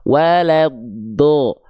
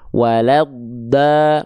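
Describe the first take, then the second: First: The final vowel sounds like a thick O. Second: The final vowel sounds like a thin A. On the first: The speaker calls it right. "tapi seperti vokal O" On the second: The speaker calls it wrong. "nggak dibaca seperti vokal A terdengarnya"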